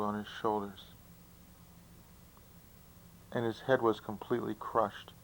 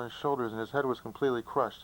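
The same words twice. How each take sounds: First: It is said slowly, pausing before the punchline. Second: It is said fast, rushing into the punchline. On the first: The listener gets time to think before the punchline. The speaker calls it right. "here's how the joke should be told" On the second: The listener gets no time to think about it. The speaker calls it wrong. "when you have to say it fast"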